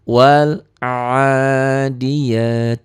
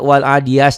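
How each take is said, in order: First: The phrase ends with a 't' sound. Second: The phrase ends with an 's' sound. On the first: The speaker calls it right. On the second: The speaker calls it wrong.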